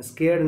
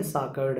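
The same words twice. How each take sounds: First: स्कैर्ड said as skeird, the wrong reading of the word; the misread स्कैर्ड, pointed out as wrong, skeird; teacher voices the wrong reading स्कैर्ड as skeird; not this reading. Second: साकर्ड said as sakard, the intended word meaning holy; teacher corrects to साकर्ड, said sakard; correct reading. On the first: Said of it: "स्कैर्ड नहीं है". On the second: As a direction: settle on साकर्ड, sakard, as the right one. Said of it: "साकर्ड है". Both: Shown as a demonstration.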